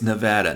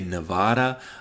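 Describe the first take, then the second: First: It is pronounced the way locals say it. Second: It is pronounced the way outsiders say it. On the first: This is how people from the state say it. The speaker calls it right. "I was born in Nevada, so I'm telling you right now, it's Nevada" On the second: This is how people from elsewhere say it. The speaker calls it wrong. "most people outside of the state say Nevada"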